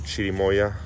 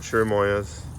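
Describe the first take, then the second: First: It is said with a Mexican Spanish pronunciation. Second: It is said with an English-style pronunciation.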